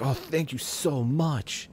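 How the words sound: It is said with lively, expressive feeling. The speaker calls it right. "people enunciate and have expression in their voice"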